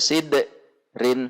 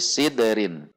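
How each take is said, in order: First: There is a pause between the two syllables. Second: The syllables run together with no pause. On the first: The speaker calls it wrong. "Tidak boleh dibaca sid rin, ada jeda" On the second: The speaker calls it right. "tetapi sidrin"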